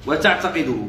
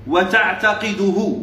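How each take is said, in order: First: Said in the usual way. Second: Very slow, measured reading of وتعتقده; وتعتقده drawn out for students to follow; slow dictation. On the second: Shown as a demonstration. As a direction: stretch وتعتقده out syllable by syllable. Dictating the text word by word.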